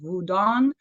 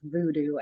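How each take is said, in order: First: The word is said a different, less familiar way. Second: The word is said the familiar English way. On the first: This is the name as its practitioners say it. The speaker calls it right. "the correct pronunciation is" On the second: This is the name outsiders commonly use. The speaker calls it wrong. "as they say"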